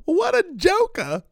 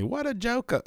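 First: Very high, drawn-out mocking squeal; old dude's funny line. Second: Higher but soft, quick quoted line; lighter echo of the clip. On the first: Podcaster imitating an old online clip, high and slow. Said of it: "some old dude online that, like, years ago did that funny". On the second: Retold or imitated. Retelling the clip to listeners, a lighter imitation. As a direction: quote it again more lightly. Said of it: "did that funny".

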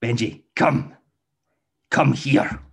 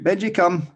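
First: Irritated recall. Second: High, loud call of the dog's name; cheerful recall shout. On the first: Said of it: "that change in the tone of voice". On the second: Owner shouts the recall cue to Benji, high and loud. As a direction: call him in brightly from across the park. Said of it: "so we shout". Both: Shown as a demonstration.

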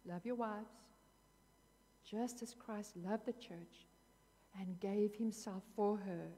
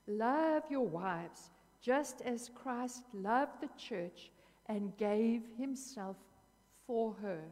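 First: Said in the usual way. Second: Slow, loud and deliberate, each word weighed; slow reading. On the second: Real, not acted. Preacher reading scripture to the congregation, slow and emphatic. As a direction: read it out very slowly and with weight. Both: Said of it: "I'm gonna read it to you slowly".

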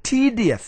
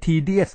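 First: "tedious" with a strong, stretched first syllable; correct English stress. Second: "tedious" with Thai tones and even syllables; wrong Thai-style pronunciation. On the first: Teacher modelling the proper accent, English stress. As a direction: hit "te" high, then drop through "tedious". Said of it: "มันมีสำเนียงของมัน". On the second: Teacher showing what it is not, Thai-style tedious. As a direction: say "tedious" without English stress. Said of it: "ไม่ใช่ tedious ไม่ใช่ boring". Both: Shown as a demonstration.

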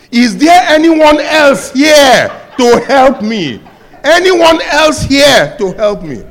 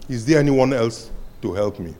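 First: High, loud, laughing plea for someone else; hammed-up desperate cry, half laughing; frantic shout. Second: Said in the usual way. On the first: Man refuses to let go.

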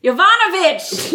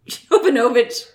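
First: Yovanovitch with VAN punched higher; stress on VAN. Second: Yovanovitch with the stress on NO; usual stress missed. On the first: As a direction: hit yo-VAHN-a-vitch on the second syllable. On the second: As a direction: say yo-va-NO-vitch, leaning on NO. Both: Shown as a demonstration. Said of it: "Emphasis on the wrong syllable".

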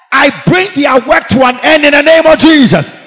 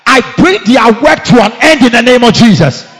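First: Higher louder command. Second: Loud command. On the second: Repeated command, second higher. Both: Real, not acted.

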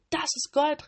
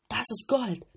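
First: Greedy robbers yelling even higher; louder, higher shout. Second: Loud greedy cry; shouting robbers. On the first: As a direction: shout it again with more greed. (noch lauter, höher rufend) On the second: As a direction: call out at the sight of gold. (laut gierig rufend) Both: A narrator's reading. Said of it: "riefen sie".

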